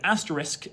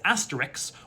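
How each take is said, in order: First: The sounds are in their usual order. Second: Two sounds near the end are swapped. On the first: "pronounced the word asterisk" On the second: "as asterix, that's metathesis"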